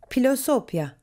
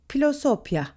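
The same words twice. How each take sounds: No difference in how they are said.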